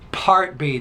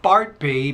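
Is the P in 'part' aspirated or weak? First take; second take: aspirated; weak. First: The P is explosive, with a burst of air. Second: The P is weak, with little air. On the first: The speaker calls it right. "It's an explosive bilabial consonant" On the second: The speaker calls it wrong. "not part B"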